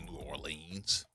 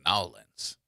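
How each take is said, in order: First: The name is said in full, syllable by syllable. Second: The name is squeezed into a short, slurred form. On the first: This is how outsiders say it. The speaker calls it wrong. "We don't say New Orleans" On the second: This is how locals say it. The speaker calls it right. "We say Nolans"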